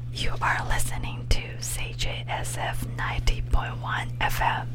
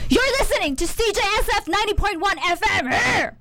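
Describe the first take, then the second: First: It is said very quietly, ASMR style. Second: It is said in an angry voice.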